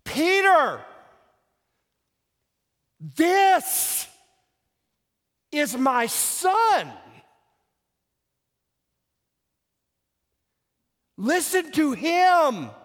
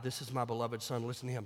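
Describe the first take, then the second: First: Loud, high, drawn-out words with long pauses; exasperated God spelling it out word by word; divine exasperation. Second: Said in the usual way. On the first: Shown as a demonstration. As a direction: hammer each phrase slowly, at the end of patience. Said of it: "a note of divine exasperation and intentional emphasis". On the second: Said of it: "it's all in how you emphasize this".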